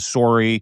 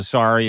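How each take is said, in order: First: The word is said in a Canadian accent. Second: The word is said in an American accent. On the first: "instead of a sorry" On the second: "pronounce my sorries as a sorry"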